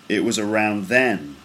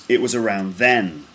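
The two takes are said the same way.

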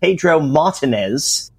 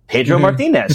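First: The name has an English announcer's pronunciation. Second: The name has a Spanish pronunciation. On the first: "you'll get the English announcers" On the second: "that's how you pronounce that"

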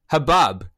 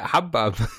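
First: The stress is on the second syllable. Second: The stress is on the first syllable. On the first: "This is a weird emphasis. You put the emphasis there. It's like shalom" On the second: "that's how I've always said it"

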